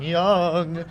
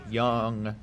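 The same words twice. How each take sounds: First: Called out high. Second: Crying-like. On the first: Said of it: "Why did I say his name like that?". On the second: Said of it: "I said it like I was crying or something". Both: Real, not acted.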